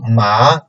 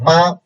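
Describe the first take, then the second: First: It is said with the second tone. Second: It is said with the first tone. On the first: It means sesame. "second tone ma means sesame" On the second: It means mother. "the first tone ma means mother"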